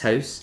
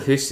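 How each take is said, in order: First: The vowel is an 'ow' sound. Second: The vowel is a long 'oo' sound. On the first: The word is said the standard way. The speaker calls it right. "it's house" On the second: The word is said the Scots way. The speaker calls it wrong. "it's no hoose"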